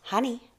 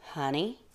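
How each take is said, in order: First: Higher, teasing little offer; tempting reveal. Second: Intrigued. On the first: Mouse tempting the bear with a treat, high teasing reveal. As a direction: dangle the word high and lightly. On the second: Bear suddenly interested in the mouse's offer, soft intrigued question. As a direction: echo it quietly with growing interest. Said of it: "Bruce was now intrigued". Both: A narrator's reading.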